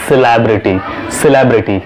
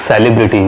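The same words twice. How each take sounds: First: "celebrity" as si-LEB-rity; reduced "si", open "leb" in "celebrity"; correct pronunciation. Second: "celebrity" as SELI-brity; full "sel" opening "celebrity"; wrong pronunciation. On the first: Teacher gives the fix, "celebrity" as si-LEB-rity. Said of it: "Correct is". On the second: Teacher quotes the mistake, "celebrity" as SELI-brity. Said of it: "which is not correct". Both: Shown as a demonstration.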